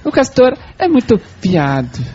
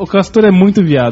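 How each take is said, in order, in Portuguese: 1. Foi dita com sotaque francês. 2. Foi dita com sotaque brasileiro comum.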